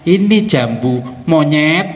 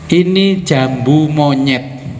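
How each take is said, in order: First: 'Monyet' is set apart, as if addressing someone. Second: 'Monyet' runs on smoothly from 'jambu'. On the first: It calls the listener a monkey. The speaker calls it wrong. "ketika jenengan salah intonasinya" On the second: It names the fruit, a cashew apple. The speaker calls it right. "Coba saya mengatakan ke jenengan begini"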